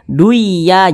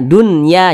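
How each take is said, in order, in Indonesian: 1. Bunyi n menyatu dengan y. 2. Bunyi n terdengar jelas sebelum y. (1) "jangan dibaca duya" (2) "jelas dibaca dunya"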